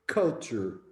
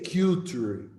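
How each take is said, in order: First: The first syllable sounds like 'cull' without Q. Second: The first syllable sounds like the letter Q. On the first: The speaker calls it right. "we say culture" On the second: The speaker calls it wrong. "we don't say culture"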